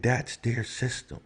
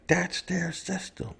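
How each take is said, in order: First: Raised, heated retort; rising outrage, pitched up; indignant. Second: Much higher, near-cry of outrage; peak indignation. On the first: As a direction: push back hard, voice up. Indignant rant, said twice. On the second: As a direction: hit it even higher in disbelief. Repeat, rant peaks. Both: Real, not acted.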